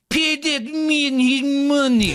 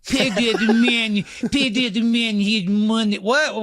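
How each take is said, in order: First: Put-on high, slow, mangled mystery accent; Malkovich impression. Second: Put-on slow, higher mangled Malkovich accent; Malkovich impression. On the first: Host mocking Malkovich's Rounders accent, slow and high. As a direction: drag out each word in a bad fake accent. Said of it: "John Malkovich, like". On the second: Co-host redoing Malkovich's Rounders line, slow and higher. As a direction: stretch the words in a bad fake accent. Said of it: "Malkovich ... just outside his range".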